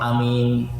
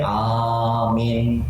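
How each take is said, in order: First: Both vowels are said short. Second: Only the first vowel is held long. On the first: "Kalau bacanya pendek semua" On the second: "a-nya panjang, min-nya pendek"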